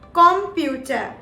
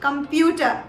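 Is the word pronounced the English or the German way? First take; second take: German; English. First: It is pronounced the German way. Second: It is pronounced the English way. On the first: "while in German, we call it computer" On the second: "In English, we call it computer"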